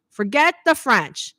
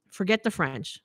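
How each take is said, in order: First: "Forget the French" drawn out, higher and louder; emphatic repeat. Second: Said in the usual way. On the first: Retold or imitated. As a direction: hammer home "Forget the French", slowly and louder. Repeats it emphatically, telling husband.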